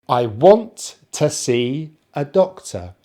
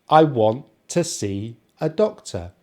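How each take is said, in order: Both takes have the same delivery.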